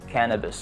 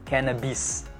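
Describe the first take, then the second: First: The final i vowel is relaxed and schwa-like. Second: The final i vowel is a sharp ee. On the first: The speaker calls it right. "dibaca cannabis" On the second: The speaker calls it wrong. "bukan i tajam"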